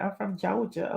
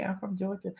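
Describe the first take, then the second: First: Georgia accent. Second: Softly spoken "Georgia", the r sounded. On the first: Streamer explaining her accent to laughing viewers, Georgia accent. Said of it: "my accent? It's my accent". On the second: Streamer repeating "Georgia" for laughing viewers, r pronounced. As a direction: say "Georgia" more carefully, as "Jor-ja". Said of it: "It's my accent. I'm from Georgia". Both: Real, not acted.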